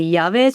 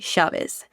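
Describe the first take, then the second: First: It starts with a y sound. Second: It starts with an sh sound.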